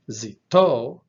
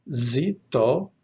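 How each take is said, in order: First: Zito with a loud, punched final TO; zi-TO, hit the end of Zito; stress on last syllable. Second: Zito with the accent on ZI; ZI-to, loud opening syllable in zito; stress on first syllable. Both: Shown as a demonstration. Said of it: "the only difference is in the accent".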